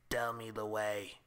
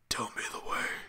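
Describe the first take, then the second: First: It is said in a plain, not scary voice. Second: It is said in a put-on scary voice.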